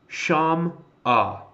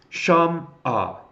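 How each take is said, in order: The two takes are said the same way.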